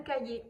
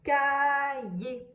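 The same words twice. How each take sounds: First: Said in the usual way. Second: "Cahier" stretched by syllable, ending on é; silent final R. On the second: Shown as a demonstration. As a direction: sound out "Cahier" slowly with no R heard. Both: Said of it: "je n'entends pas le R".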